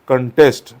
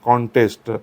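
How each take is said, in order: First: The stress is on the second syllable. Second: The stress is on the first syllable. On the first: It is used as a verb. "As a verb जर तुम्ही हा शब्द वापरत असाल तर त्याचा उच्चार काय केला पाहिजे" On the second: It is used as a noun. "Contest हे noun आहे"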